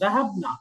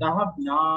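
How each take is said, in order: First: The final vowel is short, not drawn out. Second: The final vowel is lengthened, drawn out. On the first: It means the women went. "টান দেওয়া যাবে না" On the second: It means we went. "আর এখানে একটু টান হবে"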